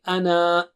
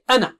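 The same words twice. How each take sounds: First: The final vowel is drawn out long. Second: The final vowel is kept short. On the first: The speaker calls it wrong. "you don't say" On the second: The speaker calls it right. "Just say أنا. You don't pronounce that mud"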